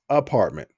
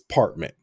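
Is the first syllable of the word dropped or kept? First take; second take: kept; dropped. First: The word is said in full with its first syllable. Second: The word is said without its first syllable. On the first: "This hobosexual never says apartment" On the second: "He just says partment"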